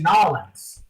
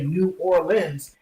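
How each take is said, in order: First: The name is squeezed into two short syllables. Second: The name is said in full, all syllables. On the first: This is how locals say it. "down in New Orleans they say Nolans" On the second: This is how people elsewhere say it. "everywhere else people say New Orleans"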